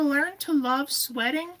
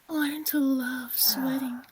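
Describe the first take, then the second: First: The phrase is spoken at a normal pace. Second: The phrase is spoken at a slower pace.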